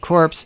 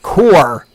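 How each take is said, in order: First: The word ends with a 'ps' sound. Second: The word ends with an 'r' sound. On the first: The speaker calls it wrong. "I've screwed up the pronunciation of core" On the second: The speaker calls it right. "you pronounce it core"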